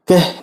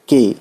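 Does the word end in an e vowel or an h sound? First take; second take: h sound; e vowel. First: The word ends with an audible h sound. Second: The word ends in a plain e vowel. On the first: The speaker calls it wrong. "कह नहीं कहेंगे दोस्तों" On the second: The speaker calls it right. "लेकिन के बोलते हैं only"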